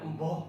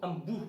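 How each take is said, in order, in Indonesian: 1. Vokal terakhir terdengar seperti 'o'. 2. Vokal terakhir terdengar seperti 'u'. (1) "bukan emboh" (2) "Embuh bukan emboh"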